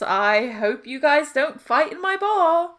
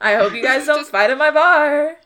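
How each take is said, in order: First: It is spoken in a British accent. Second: It is spoken without a British accent. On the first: The speaker calls it wrong. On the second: The speaker calls it right.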